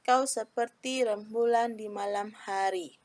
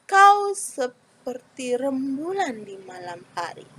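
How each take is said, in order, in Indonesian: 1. Dibaca datar, tidak ada kata yang ditekan. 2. Dibaca berirama, ada beberapa kata yang ditekan. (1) "itu tidak ada rasanya ya" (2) "Ada kata yang ditekankan, ada kata yang tidak ditekankan"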